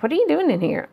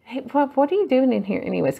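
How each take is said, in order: First: Higher, surprised husband asking; a husband catching her lying down, startled; husband's question. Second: Lightly voiced husband, quick and a bit higher; husband's question. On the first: Retold or imitated. Husband finding her lying down, higher surprised question. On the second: Husband walking in on her resting, lightly voiced puzzled question. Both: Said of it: "He's like".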